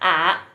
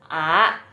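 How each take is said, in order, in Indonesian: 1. Diucapkan dengan nada ketiga. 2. Diucapkan dengan nada kedua. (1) "Yang ketiga bacanya A gitu. Karena keriting tandanya" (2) "Yang kedua bacanya A"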